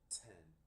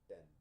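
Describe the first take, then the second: First: The t has a strong puff of air. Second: The t has no puff of air.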